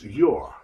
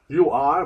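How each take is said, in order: First: It is said as one contracted word. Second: It is said as two full words.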